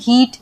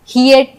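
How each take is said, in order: First: The vowel is one long ee sound. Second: The vowel glides from ee into uh. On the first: The speaker calls it right. "हम हीट ... ऐसे पढ़ेंगे" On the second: The speaker calls it wrong. "हियट नहीं पढ़ते"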